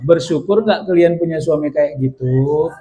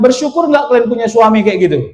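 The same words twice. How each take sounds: First: The question is asked slowly and deliberately. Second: The question is asked at normal, quicker pace.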